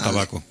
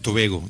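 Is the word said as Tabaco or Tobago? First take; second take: Tabaco; Tobago. First: It is said with 'ta' and a 'k' sound. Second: It is said with 'to' and a 'g' sound. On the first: This is the Spanish form of the name. "la segunda isla se llama Tabaco" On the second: This is how the islanders say the name. "Tobago es como ellos pronuncian tabaco"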